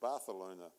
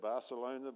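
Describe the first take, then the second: First: The c is said with a lisped th sound. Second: The c is said with a plain s sound. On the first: This is how locals say the name. "if you live there, it's Barcelona. Because there was once a king that had a lisp" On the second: This is how outsiders say the name. "we say Barcelona"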